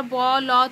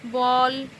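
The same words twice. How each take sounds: First: "ব, ল" as two separate drawn sounds; "ব, ল" broken up instead of one syllable; split into letters. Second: Said in the usual way. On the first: Shown as a demonstration. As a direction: say "ব" and "ল" apart, each with its own vowel. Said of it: "ব, ল তাই বলি না". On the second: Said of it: "একবারে উচ্চারণ করছি".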